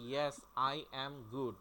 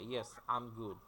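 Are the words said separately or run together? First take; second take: separately; run together. First: The words are said separately, each one fully. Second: The words run together in one smooth flow. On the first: The speaker calls it wrong. "আপনি তো বলেন" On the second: The speaker calls it right. "ইংরেজিতে একটা না বলে"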